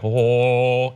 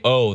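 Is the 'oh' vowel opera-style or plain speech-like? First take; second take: opera-style; plain. First: The vowel is a deep, rounded opera-style oh. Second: The vowel is a plain everyday spoken oh. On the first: "they're gonna do like, oh, and it's not the same O sound" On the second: "they're not going to say"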